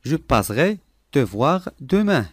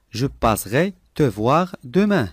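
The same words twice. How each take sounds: The two takes are said the same way.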